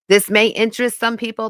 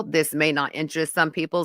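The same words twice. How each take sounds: First: Brighter, louder take that stresses may; upbeat first take. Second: Said in the usual way. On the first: Acted. First of two takes to the stream, raised and louder. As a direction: pitch the first version up and out, landing on may.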